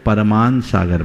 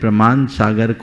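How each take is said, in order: First: The name begins with 'par', an added vowel. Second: The name begins with a tight 'pr' cluster. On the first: The speaker calls it wrong. "परमान सागर बना देते हैं" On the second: The speaker calls it right. "प्रमाण सागर को"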